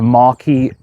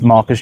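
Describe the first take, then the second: First: The word sounds like mar-KEE. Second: The word sounds like MAR-kus. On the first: This is the standard form of the title. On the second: This is how local people say it.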